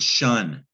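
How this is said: The suffix is said as English shun. "We pronounce it shun"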